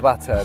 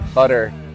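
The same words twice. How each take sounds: First: The middle consonant is a crisp, clear T. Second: The middle consonant sounds like a soft D. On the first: "You really have to stress the T's" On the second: "Americans like say butter"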